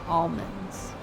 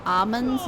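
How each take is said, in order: First: Almonds said "AHL-munds", L pronounced; sounded L. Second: First almonds said "AH-munds", silent L; L-less variant. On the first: Streamer giving the expected way, L pronounced. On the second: Streamer quoting weirdos' way, silent L. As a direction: drop the L in almonds, "AH-m'ndz". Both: Shown as a demonstration. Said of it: "almonds instead of almonds".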